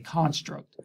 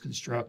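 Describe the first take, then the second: First: The stress is on the first syllable. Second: The stress is on the second syllable. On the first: It is used as a noun. "As a noun, it's a construct" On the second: It is used as a verb. "So as a verb, it's construct"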